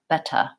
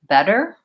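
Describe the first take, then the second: First: It ends without the tight American R. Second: It ends with a tight American R sound. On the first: "British R" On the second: "American R"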